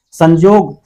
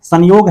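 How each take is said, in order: First: संजोग with j replacing the y. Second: Said in the usual way. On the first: Shown as a demonstration. Teacher showing the Nagpuri form, j sound in संजोग. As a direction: say संयोग as संजोग, with a j. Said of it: "ज के रूप में होता है". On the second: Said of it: "आपको संजोग हो जा रहा है".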